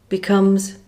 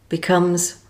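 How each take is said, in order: Both takes have the same delivery.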